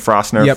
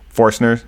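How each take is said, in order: First: The r sound comes before the vowel. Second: The r sound comes after the vowel. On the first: The speaker calls it wrong. "I've been saying Frostner for a long time" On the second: The speaker calls it right. "I've been getting corrected"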